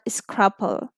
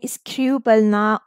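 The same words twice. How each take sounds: First: The first syllable is closed with a short vowel. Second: The first syllable is open with a long vowel. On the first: The speaker calls it wrong. "why not scruple" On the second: The speaker calls it right. "why I'm saying scruple"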